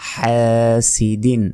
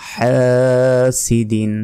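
Both takes have the same delivery.

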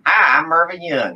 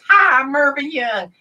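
First: The puppet voice is lower-pitched. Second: The puppet voice is high-pitched.

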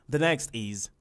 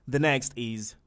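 No difference in how they are said.

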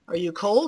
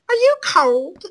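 First: It is read in the speaker's own normal voice. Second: It is read in a put-on character voice.

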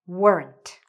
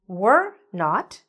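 First: It is said as one contracted word. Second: It is said as two separate full words. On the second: "were not becomes what?"

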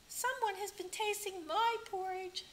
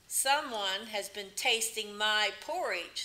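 First: It is said in a medium voice. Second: It is said in a deep, big voice.

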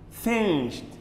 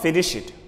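First: The ending is a single t sound. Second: The ending is an extra id syllable. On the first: The speaker calls it right. "We use T sound at the end" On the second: The speaker calls it wrong. "Don't say finish it"

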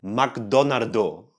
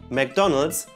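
First: It is said with Japanese syllables, ending in -do. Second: It is said as the English name. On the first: The speaker calls it wrong. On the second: The speaker calls it right.

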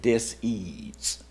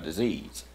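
First: The word is split into two separate parts. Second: The word is said smoothly as one unit. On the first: A lack of ease. "he would always pronounce it dis-ease" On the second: An illness. "it says disease, like having a disease"

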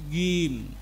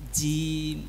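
First: The jim ends cleanly without a breathy release. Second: The jim ends with an audible breathy release. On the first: The speaker calls it right. "Tapi jim. ... Karena dia ... tidak memiliki sifat hamas" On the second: The speaker calls it wrong. "Jangan sampai a'udzu billahi minasyaitonir rajim jim"

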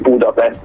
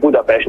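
First: The word ends with an 'st' sound. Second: The word ends with a 'sht' sound. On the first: This is how foreigners usually say the name. "nem azt mondják" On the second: This is how locals say the name. "Budapest S betűvel"

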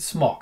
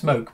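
First: The vowel is short, like in 'rock'. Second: The vowel is long, like in 'joke'. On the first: The speaker calls it right. "I pronounce it smock" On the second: The speaker calls it wrong. "I've heard it pronounced smoke"

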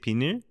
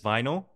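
First: It is said with a Korean pronunciation. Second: It is said with an English pronunciation. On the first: "but we say 비닐" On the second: "So in English, it's vinyl"

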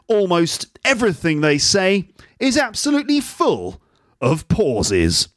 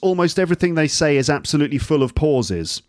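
First: The sentence is broken up by long pauses. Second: The sentence flows smoothly with no long pauses. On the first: "Let's do that one. It would be like this" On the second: "So for example, this sentence"

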